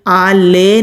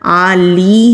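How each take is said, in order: First: The word ends with an 'e' vowel. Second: The word ends with an 'ee' vowel. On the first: The speaker calls it wrong. "आले नहीं पढ़ना" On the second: The speaker calls it right. "आली है, लाम के नीचे जेर है"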